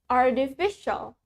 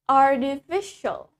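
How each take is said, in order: The two takes are said the same way.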